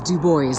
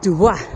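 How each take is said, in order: First: The name is pronounced the local American way. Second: The name is pronounced the French way. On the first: This is how locals in Wyoming say it. "But if you're from Wyoming" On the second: This is how French speakers say it. "If you speak French"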